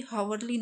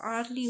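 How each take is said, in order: First: Hourly with a sounded h, "haurly"; wrong pronunciation. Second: Hourly with a silent h, "ourly"; correct pronunciation. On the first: Teacher showing students the wrong way, h sounded. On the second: Teacher correcting students, silent h. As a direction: say hourly starting on the vowel. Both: Shown as a demonstration. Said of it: "यहाँ पे hourly नहीं होगा".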